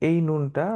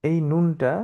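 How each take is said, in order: Both takes have the same delivery.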